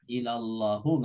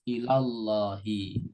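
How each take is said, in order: First: The word ends with a u vowel. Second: The word ends with an i vowel. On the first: The speaker calls it wrong. "nggak boleh" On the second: The speaker calls it right. "harus ilallahi"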